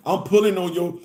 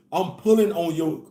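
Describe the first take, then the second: No difference in how they are said.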